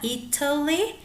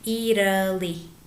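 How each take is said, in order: First: The middle consonant is a clear, crisp t. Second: The middle consonant is a soft, r-like tap. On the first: "puede ser con la T marcada" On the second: "Como una R muy bajita en lugar de la T"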